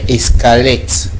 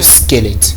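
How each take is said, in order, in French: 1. Le mot commence par un son e ajouté. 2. Le mot commence directement par le son s. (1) "on a l'habitude d'ajouter un E devant" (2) "On parle de squelette en principe"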